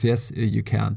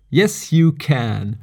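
First: Said in the usual way. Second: Slow, emphatic "yes, you can"; campaign slogan. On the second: Pretend. Podcaster playfully tells listeners they can meditate, slow slogan delivery. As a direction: proclaim it like a would-be president, drawing it out. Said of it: "would be one to get president".

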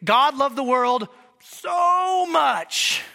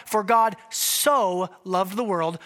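First: "so" stretched long and loud; slow, loud, leaning hard on "so"; stress on so. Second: Slow, even quote of the verse; for God so loved the world, measured and plain. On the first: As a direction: drag out "so" to show how much. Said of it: "a so of degree". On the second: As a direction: read it the familiar way, slowly. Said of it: "most of you hear that as a so". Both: Shown as a demonstration.

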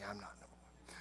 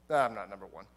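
First: Low, hushed whisper, nervous to be noticed; whispered denial. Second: Low denial. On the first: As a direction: breathe it out under the voice. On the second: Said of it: "Judas is like". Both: Retold or imitated.

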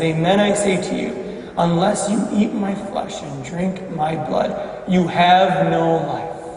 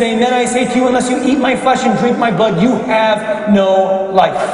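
First: Low, soft and grave, slowing at the end; hushed solemn repetition. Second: Firm, insistent solemn pronouncement; emphatic declaration. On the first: Jesus repeats his hard teaching to doubters, hushed and solemn. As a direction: let it sink in quietly, deadly serious. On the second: Jesus answers those doubting his flesh and blood, emphatic. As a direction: declare it forcefully, drawing out the ending. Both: Acted.

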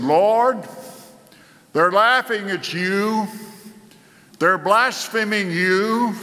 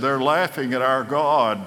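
First: Higher, urgent cry to the Lord; pleading prayer. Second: Said in the usual way. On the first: Retold or imitated. Hezekiah prostrate in the temple, calling out to the Lord in a higher pleading voice. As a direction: lift it up like a desperate plea to God. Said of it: "before the Ark of the Covenant and said". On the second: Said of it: "Isaiah went back to the king Hezekiah and said".

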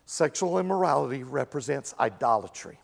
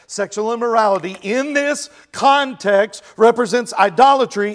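First: Said in the usual way. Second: "idolatry" pressed louder at the end; emphatic restatement. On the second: Shown as a demonstration. Pastor insisting the congregation grasp it, louder on "idolatry". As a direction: hammer home "idolatry". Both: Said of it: "This is important to understand".

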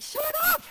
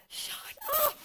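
First: High, loud shout. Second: Shrill high shout at the enemy; mock shout. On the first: Retold or imitated. Telling the enemy off out loud, high shout. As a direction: yell it at the enemy. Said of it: "out loud". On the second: Telling the enemy to shut up, high sharp shout. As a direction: snap it out, way up high. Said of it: "sometimes I'll be like".

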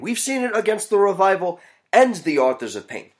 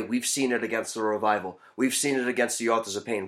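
First: Raised pitch, stress landing on "and"; emphatic summary. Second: Said in the usual way. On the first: Real, not acted. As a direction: lift the whole line and punch "and". Emphatic summary of previous two.

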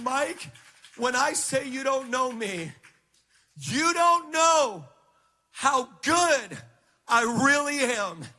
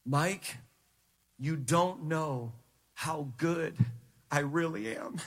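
First: High, swelling declaration, drawn out and loud at the peak; raised-pitch preacher voicing God with force; emphatic voice of God. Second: Low, soft, slow and measured, with weighty pauses; hushed, low divine authority; sovereign voice of God. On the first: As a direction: build to an impassioned, ringing proclamation. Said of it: "He said it just like that". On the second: Retold or imitated. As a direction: quietly speak as God, unhurried and deep. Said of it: "I heard the sovereign voice of God say this".

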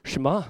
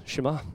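First: Shema spoken softly as shuh-MAH with a small rise; soft shuh-MAH, Shema, rising at the end; softly modelled Shema. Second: Shema even softer, shuh-MAH, almost under the breath; hushed shuh-MAH, Shema, lifting at the end; quieter Shema. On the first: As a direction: gently repeat Shema, shuh-MAH, for them to copy. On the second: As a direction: say Shema once more, barely audible. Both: Shown as a demonstration. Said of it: "Say Shema".

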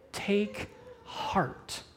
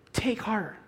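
First: Hushed, breathy Take heart, almost no voice; whispered quote. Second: Said in the usual way. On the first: Shown as a demonstration. Preacher quoting Jesus to the frightened disciples in a whisper.

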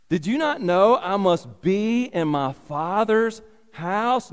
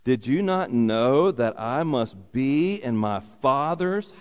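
First: Not lifted high on a rising question; did you NOT know, pitched up; stress on not. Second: Said in the usual way. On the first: Shown as a demonstration. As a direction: lean on not, voice climbing.

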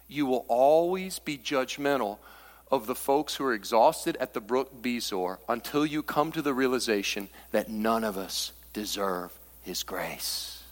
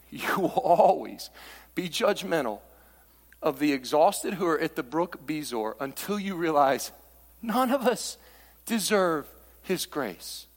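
First: Said in the usual way. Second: Slower, with weight on "always", "judgmental" and "deserve"; slow emphatic repeat. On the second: Shown as a demonstration. Preacher repeating the line to the congregation, slow and emphatic. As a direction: lean into "always" and "deserve" slowly. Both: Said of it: "Let me say it again".

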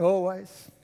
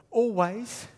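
First: "Always" drawn out with a broad Queensland Australian vowel, lower and slower; Queensland Australian accent. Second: Said in the usual way. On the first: Shown as a demonstration. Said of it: "You know what always means in Queensland?". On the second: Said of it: "I love this next word".

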